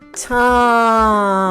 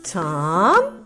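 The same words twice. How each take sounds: First: The word is stretched out slowly. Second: The word is said a little faster.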